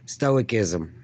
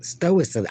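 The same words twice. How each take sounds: First: "Stoicism" said in full and evenly as /stoʊɪkɪzəm/, every syllable there; a deliberate, complete "Stoicism"; careful correct try. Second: Tripping over "stoicism", the ending swallowed; a fumbled, clipped "stoicism"; stumbled word. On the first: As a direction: land "Stoicism" cleanly all the way through. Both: Shown as a demonstration. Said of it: "I can't say it".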